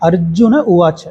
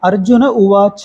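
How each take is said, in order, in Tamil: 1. கடைசி உயிரெழுத்து குறுக்கி உச்சரிக்கப்படும். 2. கடைசி உயிரெழுத்து நீளமாக இழுத்து உச்சரிக்கப்படும். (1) "அதோட முடிச்சிடணும்" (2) "அப்படின்னு சொல்லி இழுக்கக்கூடாது"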